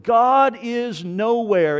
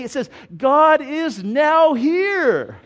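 First: "nowhere" said as one slow, heavy word; God is nowhere. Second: "now here" split into two bright words, higher, louder and slow; a little girl proudly reading out the sign; "God is now here" with "now" and "here" apart and lifted; child's eager discovery. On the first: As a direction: spell out the sign slowly and firmly, "God is nowhere". Atheist's sign read slowly. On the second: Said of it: "God is, I, I know what it says". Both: Retold or imitated.

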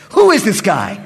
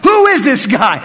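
First: Said in the usual way. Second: "Who is this guy?" shouted higher and louder; louder retake. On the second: Retold or imitated. Priest repeating "Who is this guy?" louder in exasperation.

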